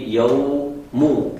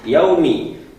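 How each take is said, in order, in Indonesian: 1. Kata itu berakhir dengan vokal u. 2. Kata itu berakhir dengan vokal i. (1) "diganti dia menjadi yaumu" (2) "tidak ya mengganti harokat ... yaitu yaumi"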